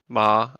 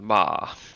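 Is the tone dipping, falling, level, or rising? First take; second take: level; dipping. First: The pitch stays flat through the syllable. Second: The pitch rises lightly and then drops. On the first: "the flat tone" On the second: "like light rising dropping tone"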